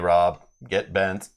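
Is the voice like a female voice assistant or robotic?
robotic. It is said in a flat, robotic voice. "in a robotic voice was like"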